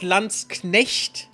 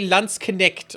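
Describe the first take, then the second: First: The final ch is a throaty German sound. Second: The final ch is not a throaty sound. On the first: The speaker calls it right. "Not Landsknecht, because Knechte, you know, that's that's a German word" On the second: The speaker calls it wrong. "They always say Landsknecht or something bullshitty like that because they can't they can't say the C H"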